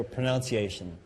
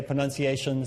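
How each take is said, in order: First: "pronunciation" with second syllable as "noun"; pronunciation variant. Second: "pronunciation" with second syllable as "nun"; pronunciation variant. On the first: Teacher comparing two accepted forms, "pronunciation" with a "noun" syllable. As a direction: say "pronunciation" as pro-NOUN-see-ay-shun. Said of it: "some say pronunciation". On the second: Teacher comparing two accepted forms, "pronunciation" with a "nun" syllable. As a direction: say "pronunciation" as pro-NUN-see-ay-shun. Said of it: "some people will say pronunciation". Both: Shown as a demonstration.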